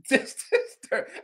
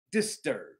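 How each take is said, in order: First: Slow, higher with a laugh on "disturbed"; laughing repeat. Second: Lower, quiet flat drop on "disturbed"; deadpan disturbed. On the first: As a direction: chuckle through "Just disturbed". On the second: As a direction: let "disturbed" sink low and quiet. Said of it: "I was just". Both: Real, not acted.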